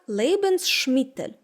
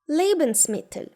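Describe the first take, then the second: First: The middle s sounds like sh, joined to mittel. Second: The middle s is a plain s ending Lebens. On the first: The speaker calls it wrong. "Читають як Lebensmittel. Звідки тут може взятися звук Ш?" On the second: The speaker calls it right. "цю «с» не треба включати в склад другого слова і тим паче утворювати звук «ш»"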